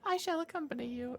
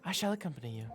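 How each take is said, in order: First: It is said in an annoying put-on voice. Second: It is said in a plainer, less annoying voice. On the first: The speaker calls it wrong. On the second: The speaker calls it right.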